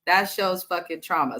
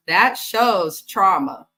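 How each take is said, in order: First: "That shows fucking trauma" stressed on "fucking"; emphatic repeat. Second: "That shows trauma" slow, every word weighted; slow emphasis. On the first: Recapping the mom, stressing "fucking" in the repeat. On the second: Recapping the mom, slowly stressing "That shows trauma". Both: Shown as a demonstration.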